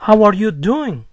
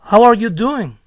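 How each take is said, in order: First: It has a flat statement-like tune at the end. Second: The same.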